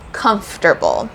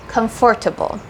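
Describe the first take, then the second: First: The middle 'or' syllable is dropped. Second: The middle 'or' syllable is fully pronounced. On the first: The speaker calls it wrong. "So I say it the wrong way" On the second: The speaker calls it right. "The correct way to say it is comfortable"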